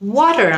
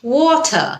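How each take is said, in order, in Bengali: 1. এটি আমেরিকান ইংরেজি উচ্চারণে বলা হয়েছে। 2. এটি ব্রিটিশ ইংরেজি উচ্চারণে বলা হয়েছে। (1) "এটা কিন্তু আমেরিকান উচ্চারণ হয়" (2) "ব্রিটিশরা এটাকে ওয়াটার এভাবে বলে।"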